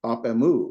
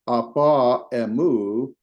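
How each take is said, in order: First: AP EMU run together, no a after the p; smooth elided reading. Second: APA EMU with the final a sounded before emu; unelided reading. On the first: Teacher showing students the smoother reading, vowel dropped. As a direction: drop the vowel and link "ap emu". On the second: Teacher showing students the fuller reading, both vowels sounded. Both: Shown as a demonstration. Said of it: "it's a more smoother reading".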